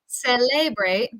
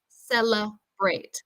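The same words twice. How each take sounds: First: The second vowel is a full E sound. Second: The second vowel is a reduced schwa sound. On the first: The speaker calls it wrong. "instead of saying celebrate" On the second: The speaker calls it right. "we say cella"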